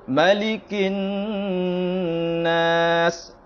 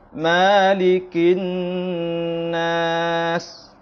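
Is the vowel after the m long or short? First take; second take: short; long. First: The vowel after the m is short. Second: The vowel after the m is drawn out long. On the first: The speaker calls it right. "dibaca pendek" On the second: The speaker calls it wrong.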